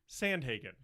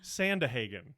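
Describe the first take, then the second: First: No extra vowel is inserted after 'Sand'. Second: An extra vowel is inserted after 'Sand'. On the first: The speaker calls it right. "There, I got it" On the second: The speaker calls it wrong. "I was mispronouncing somehow Sandhagen, and I was adding, I was saying Sandahagen"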